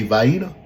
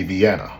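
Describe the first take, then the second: First: "Vienna" with a long EYE in the first part; the vy-EE-nuh version of "Vienna"; one pronunciation. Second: "Vienna" with a short A in the middle; the vee-AN-uh version of "Vienna"; other pronunciation. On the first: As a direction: say "Vienna" as vy-EE-nuh, ending on a rise. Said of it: "You say Vienna". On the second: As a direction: say "Vienna" as vee-AN-uh, falling at the end. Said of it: "I say Vienna". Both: Shown as a demonstration.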